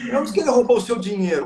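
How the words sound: The stress is on "dinheiro".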